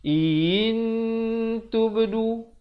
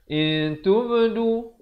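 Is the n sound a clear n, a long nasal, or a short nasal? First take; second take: clear n; short nasal. First: The n is held long but sounded as a full n. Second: The n is hidden in the nose but cut short. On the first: "panjang dah cantik, ikhfa pula tak ada" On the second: "Ikhfa dah cantik tetapi panjang tak cukup"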